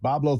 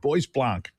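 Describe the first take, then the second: First: The name is said as two short syllables, Boblo. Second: The name is said following its French spelling. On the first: The speaker calls it right. "I had no idea it was pronounced Boblo" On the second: The speaker calls it wrong. "I would have said"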